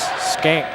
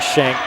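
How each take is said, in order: First: The name begins with an 'sk' sound. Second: The name begins with an 'sh' sound. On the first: This is how the family says it. The speaker calls it right. "it's Skank that they pronounce that" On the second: This is how the spelling seems to read. The speaker calls it wrong. "it looks like Shank"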